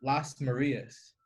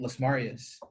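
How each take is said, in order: First: Las Marias slowly, as two words, stressed ma-REE-as; Spanish pronunciation. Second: Las Marias run together, stressed MAR-ee-us; Americanized pronunciation. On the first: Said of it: "It's supposed to be pronounced". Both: Shown as a demonstration.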